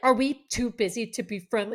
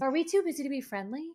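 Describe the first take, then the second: First: It sounds pointed and confrontational. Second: It sounds light, casual and offhand.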